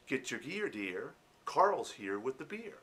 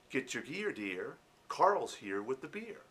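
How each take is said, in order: First: It is slow with an American accent. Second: The same.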